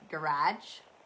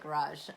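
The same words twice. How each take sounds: First: It is said the plain Canadian way. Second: It is said in a more posh way.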